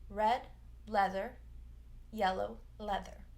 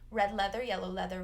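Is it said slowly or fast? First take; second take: slowly; fast. First: It is said slowly, word by word. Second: It is said fast, words run together.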